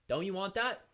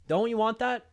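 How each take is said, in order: First: Said in the usual way. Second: Louder, higher insistent question; insistent repeat. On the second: Real, not acted. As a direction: press the listeners harder, raising your voice. Repeats the sales pitch more insistently.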